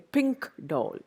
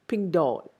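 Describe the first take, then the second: First: The first word ends in a clear k sound. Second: The first word ends in a g-like sound. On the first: The speaker calls it wrong. "We don't say pink doll" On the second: The speaker calls it right. "we say ping doll"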